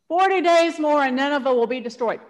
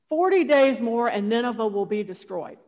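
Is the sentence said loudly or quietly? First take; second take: loudly; quietly. First: It is shouted loudly. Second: It is said at a plain, quiet volume.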